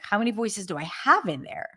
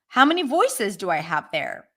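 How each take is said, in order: First: The stress falls on the word have. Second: The stress falls on voices, not on have. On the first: Having voices is already acknowledged. The speaker calls it right. "It's about like" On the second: The number of voices is the new question. The speaker calls it wrong. "So it's not about"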